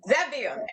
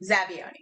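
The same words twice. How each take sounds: First: It is said with a showy Italian flair. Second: It is said plainly, without Italian flair. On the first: The speaker calls it right. "You got to say it with flair, because it's Italian" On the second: The speaker calls it wrong. "or if you must"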